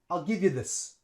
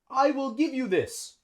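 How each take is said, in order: First: I will is contracted, and give links onto you. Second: I will is said as two full words. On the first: The speaker calls it right. "would use the contraction" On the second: The speaker calls it wrong. "Native English speakers wouldn't say that"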